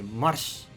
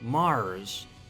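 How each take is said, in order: First: The R is harsh and sharp, as in Estonian. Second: The R is soft and vowel-like, as in English.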